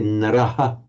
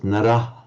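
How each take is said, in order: First: The final h is followed by an echo vowel. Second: The word ends in a bare h, no vowel. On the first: This is how it is pronounced today. "We just follow the standard modern way. So say Naraha" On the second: This is how it was probably pronounced in ancient times. "In very ancient times might have just been pronounced Narah"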